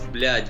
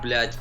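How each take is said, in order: First: The word ends with a D sound. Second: The word ends with a T sound. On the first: The speaker calls it right. "it's blядь with a D" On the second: The speaker calls it wrong. "It's not blядь with a T"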